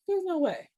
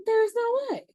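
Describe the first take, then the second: First: "there's no way" pitched up in firm disbelief; emphatic disbelief. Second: "There's no way" shrieked much higher and louder; outraged disbelief. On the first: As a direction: insist "there's no way", raised and firm. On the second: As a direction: squeal "There's no way" in shocked outrage. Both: Real, not acted.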